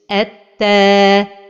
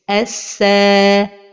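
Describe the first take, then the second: First: The doubled consonant sounds like t. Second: The doubled consonant sounds like s. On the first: "changer le son de la lettre vers le son de la lettre ta" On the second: "vers le son de la lettre sin"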